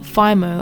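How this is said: The word has an Australian-accented pronunciation. This is how the speaker habitually says it. The speaker calls it wrong. "I always say Fimo, probably the Australian accent"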